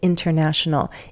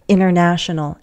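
First: The T after the N is pronounced. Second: The T after the N is dropped. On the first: "instead of" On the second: "I can also drop that T. Americans often do that"

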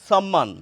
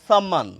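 No difference in how they are said.

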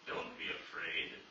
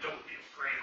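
First: It is said calmly and gently. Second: It is said as a harsh command.

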